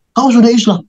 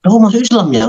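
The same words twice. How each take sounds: First: High-pitched statement, dropping firmly on "Islam"; passing a verdict. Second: High-pitched question with a questioning YA at the end; asking. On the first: Mother no longer asking her child, passing a verdict. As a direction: state "sudah Islam" as a settled fact, falling at the end. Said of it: "tapi udah memponis". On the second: Mother checking whether her child converted, asking. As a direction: put it as a question, lifting "ya". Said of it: "Jadi dia nggak nanya lagi". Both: Retold or imitated.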